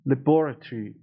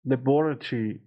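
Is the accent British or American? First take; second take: British; British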